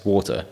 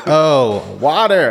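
First: Put-on Welsh accent. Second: "Oh, water" in a high American "wahter"; mock American accent. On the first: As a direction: say "Water" the Welsh way. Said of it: "I said". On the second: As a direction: imitate the flight attendant's American "water", pitched high. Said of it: "She's like".

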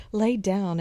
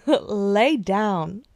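First: Said in the usual way. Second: Sassy friend voice. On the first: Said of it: "repeats the advice". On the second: Retold or imitated. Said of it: "I would be like".

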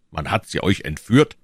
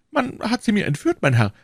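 First: Lightly voiced official, rising question; questioning commissioner. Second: High, plaintive shopkeeper voice; anxious prisoner. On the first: A narrator's reading. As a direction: query it in a level official's voice. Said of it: "rief der Kommissar". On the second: Acted. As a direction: plead your case, pitched high. Anxious prisoner answers the commissioner.

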